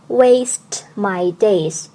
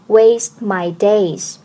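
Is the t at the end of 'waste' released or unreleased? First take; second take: released; unreleased. First: The t of waste is clearly released. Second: The t of waste is held, not released. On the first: The speaker calls it wrong. "不读作waste my days" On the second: The speaker calls it right. "爆破音t 失去爆破，而读作waste my days"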